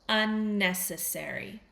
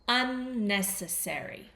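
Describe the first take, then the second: No difference in how they are said.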